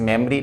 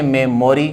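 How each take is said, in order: First: मेमोरी as 'mem-ree', without 'o'; correct pronunciation. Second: मेमोरी with a full 'o', 'me-mo-ri'; common Indian pronunciation. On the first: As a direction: drop the middle vowel of मेमोरी. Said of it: "मो नहीं". (सही उच्चारण, मेमोरी को 'मेम-री') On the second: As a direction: sound every syllable of मेमोरी. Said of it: "और बोलते हैं मेमोरी". (आम बोलचाल वाला मेमोरी, 'मो' के साथ) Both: Shown as a demonstration.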